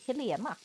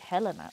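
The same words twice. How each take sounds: First: The name is pronounced the Swedish way. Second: The name is pronounced the English way. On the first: The speaker calls it right. "we say Helena" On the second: The speaker calls it wrong. "if we don't say Helena"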